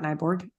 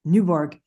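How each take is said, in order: First: "Nyborg" said the wrong way, with a ny sound; "Nyborg" as the first try, then corrected; "Nyborg" as the mistaken pronunciation; wrong name. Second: "Newborg" said as new-borg; "Newborg" as the corrected pronunciation, new then borg; "Newborg" settled on, falling at the end; corrected name. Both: Shown as a demonstration. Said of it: "not Nyborg".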